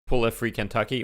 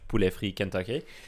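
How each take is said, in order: First: The name is said with an English accent. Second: The name is said with a French accent.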